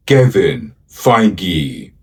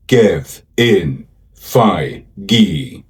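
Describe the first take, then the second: First: Said in the usual way. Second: "Kevin Feige" slowly, broken into Ke-vin Fei-ge; syllable by syllable. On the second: Shown as a demonstration. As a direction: sound out "Kevin Feige" slowly, a gap after each syllable. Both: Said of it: "Let's learn to pronounce".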